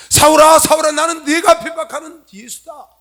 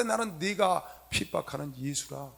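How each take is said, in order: First: Loud, high, slow call from on high; forceful divine proclamation. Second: Said in the usual way. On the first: Acted. Preacher voicing Jesus confronting Saul, loud booming proclamation. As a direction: thunder it out slowly, voice raised high.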